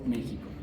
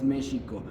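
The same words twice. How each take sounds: First: It is said with the Spanish pronunciation. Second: It is said with the original Nahuatl pronunciation. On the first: This is the form that developed after the conquest. "the Spaniards couldn't pronounce properly, so evolved to Mexico" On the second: This is the name as the original civilization said it. "Original word is Mexico, but it's how it should be pronounced"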